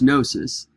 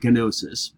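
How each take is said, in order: First: The initial G is silent. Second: The initial G is pronounced aloud. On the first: The speaker calls it right. "It starts with a silent G" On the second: The speaker calls it wrong. "so it looks like gnosis"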